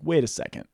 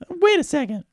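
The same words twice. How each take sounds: First: It is said in his ordinary voice. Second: It is said in a put-on lady's voice.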